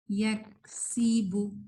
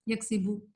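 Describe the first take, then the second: First: Slow یکسبو with a lingering س; correct reading. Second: یکسبو said quickly with a short س; wrong reading. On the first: Teacher modelling the right way, slow held س in یکسبو. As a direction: draw out یکسبو, letting the س hiss. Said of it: "تھوڑی دیر رہنی چاہیے". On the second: Teacher showing the mistake, short س in یکسبو. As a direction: pass over the س in یکسبو without holding it. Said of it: "جب ہم غلط پڑھتے ہیں". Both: Shown as a demonstration.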